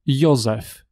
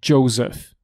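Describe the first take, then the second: First: The name starts with a 'y' sound as in yoga. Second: The name starts with a 'j' sound as in jam. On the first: The speaker calls it right. "It is j" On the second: The speaker calls it wrong. "It is not Joseph"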